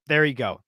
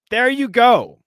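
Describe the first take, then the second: First: Said in the usual way. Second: High, loud "there you go!"; loud, high-pitched vindication; emphatic exclamation. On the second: Real, not acted. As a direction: exclaim it as if proven right.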